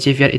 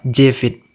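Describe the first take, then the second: First: The second syllable sounds like 'viat'. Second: The second syllable sounds like 'vit'. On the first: The speaker calls it wrong. "kalau Jeviat itu salah ya" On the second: The speaker calls it right. "membacanya Jevit"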